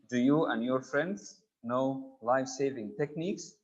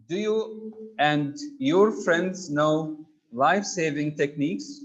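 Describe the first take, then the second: First: Said in the usual way. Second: Slowly, leaning on your; slow emphatic read. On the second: Shown as a demonstration. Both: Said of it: "emphatic in the present tense".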